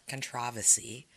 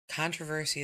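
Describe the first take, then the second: First: It is said in the British-style way. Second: It is said in the usual non-British way. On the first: The speaker calls it wrong. "not controversy" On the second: The speaker calls it right. "Controversy is the way it was pronounced"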